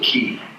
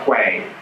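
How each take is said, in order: First: The word rhymes with 'see'. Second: The word begins with a 'kw' sound. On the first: "He means you pronounce it key" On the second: "or quay"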